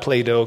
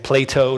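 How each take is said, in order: First: The word is pronounced unclearly and sloppily. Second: The word is pronounced clearly and carefully. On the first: The speaker calls it wrong. "I don't pronounce my words clearly enough" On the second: The speaker calls it right. "Plato, not Plato"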